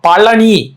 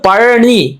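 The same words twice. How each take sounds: First: The middle consonant is a plain l sound. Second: The middle consonant is the Tamil zh sound. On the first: A northerner is pronouncing it. The speaker calls it wrong. "லகரம் போடுவான்" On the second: This is how it is written in Tamil. The speaker calls it right. "இப்ப தமிழ்ல வந்து பழனி"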